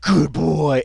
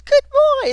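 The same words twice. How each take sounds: First: Said in the usual way. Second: Spiking high pitch. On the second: Retold or imitated. Imitating the officer's praise that spikes into a squeal. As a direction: leap way up, a squeaky high yelp. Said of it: "It, like, it spikes".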